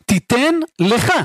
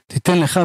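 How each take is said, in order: First: Slow, spaced out, לך set apart and emphasized; stress on לך. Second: Said in the usual way. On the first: Shown as a demonstration. Preacher parsing the verse for listeners, לך slowly singled out and stressed. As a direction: break it up and land firmly on לך.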